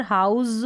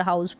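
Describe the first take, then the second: First: हाउस ending in a buzzing "z"; voiced, drawn "z" at the end of हाउस; wrong pronunciation. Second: हाउस ending in a hissing "s"; unvoiced "s" at the end of हाउस; correct pronunciation. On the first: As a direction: say हाउस as HOWZ. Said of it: "अब यहाँ पर हाउस नहीं बोल रहे". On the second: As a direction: say हाउस as HOWSS. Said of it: "हाउस बोल रहे हैं". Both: Shown as a demonstration.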